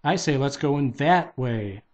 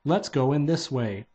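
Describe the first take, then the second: First: "that" punched as a contrary choice; insist, leaning firmly on "that"; stress on THAT. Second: Light emphasis on "this", pointing out one direction; stress on THIS. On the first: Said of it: "Daffy pointed right". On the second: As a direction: propose it, leaning gently on "this". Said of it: "He pointed left". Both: A narrator's reading.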